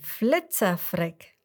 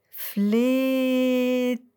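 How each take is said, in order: First: The name is said at a normal speed. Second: The name is drawn out very slowly.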